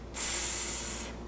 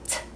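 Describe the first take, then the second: First: The T is drawn out with a hiss. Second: The T is a short, crisp burst. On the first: "then you draw the last one out like this" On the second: "you make the T sound t several times"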